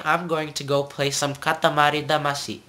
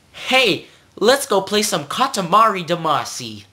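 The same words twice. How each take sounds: First: "Katamari Damacy" with tapped R; Japanese pronunciation. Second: Put-on high, loud American-accented "Katamari Damacy"; American mispronunciation. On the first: Acted. Teacher corrects the gamer, Japanese tapped R. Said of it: "I will not play some Katamari Damacy". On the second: Teacher mimics gamers mangling Japanese, in exaggerated American accent. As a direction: play an eager English speaker with American R. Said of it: "that's how some people pronounce it".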